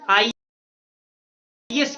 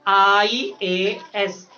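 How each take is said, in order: First: The middle letter A is dropped out. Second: All three letters are clearly sounded out. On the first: The speaker calls it wrong. "ए गायब हो जाता है" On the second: The speaker calls it right. "थोड़ा respect देके बोला जाता है"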